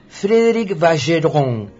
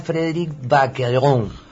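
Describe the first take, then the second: First: The name is pronounced with French sounds. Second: The name is pronounced with Italian sounds. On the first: "si fuera en francés su apellido" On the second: "Si fuera en italiano"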